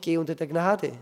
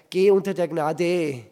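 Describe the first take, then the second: First: "Gnade" stressed on its first syllable; natural stress. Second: Loud, slow, "Gnade" landing on a long "-de"; wrong-syllable stress. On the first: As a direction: lean on "Gna-", let "-de" stay light. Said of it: "Ja, warum nicht". („Gnade“ natürlich auf der ersten Silbe betont) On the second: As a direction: stretch the final syllable of "Gnade". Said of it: "nicht die Gnade". (laut, „Gnade“ auf der Endsilbe betont) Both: Shown as a demonstration.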